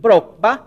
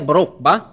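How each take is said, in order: First: The word is said with a raised tone. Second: The word is said with a lower tone. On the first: It means bananas. The speaker calls it right. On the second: It means an axe. The speaker calls it wrong.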